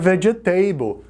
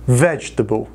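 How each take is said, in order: First: The ending sounds like the word 'table'. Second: The ending does not sound like 'table'. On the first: The speaker calls it wrong. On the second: The speaker calls it right.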